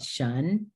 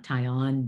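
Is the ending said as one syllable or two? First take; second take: One; Two. First: The ending is said as one syllable. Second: The ending is said as two syllables. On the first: The speaker calls it right. "but shun" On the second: The speaker calls it wrong. "not tie on"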